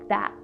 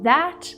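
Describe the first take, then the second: First: The final t is stopped without release. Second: The final t is fully released. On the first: "fast and stopping the sounds" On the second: "Instead of saying that"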